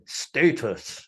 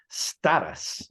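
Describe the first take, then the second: First: It is said with a British pronunciation. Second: It is said with an American pronunciation. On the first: "I'm English, so I pronounce it status like that" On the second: "in the United States is pronounced status"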